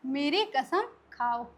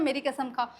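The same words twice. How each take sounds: First: Slow, deliberate meaning. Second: Said in the usual way. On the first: Shown as a demonstration. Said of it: "इसका क्या मतलब होता है". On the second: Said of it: "swear by me मतलब क्या होता है".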